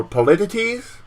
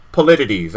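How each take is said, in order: First: "politities?" tried out with a questioning rise; unsure try. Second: "Politities" said low and falling, accepted; settled try. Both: Real, not acted. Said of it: "I guess that's the word".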